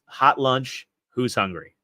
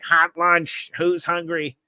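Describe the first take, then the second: First: Said in the usual way. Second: High-pitched imitation of a school lunch guy; eccentric lunch guy. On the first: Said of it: "all he could say was". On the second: Eccentric lunch guy calls students to hot lunch, high imitated call. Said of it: "he would say it like".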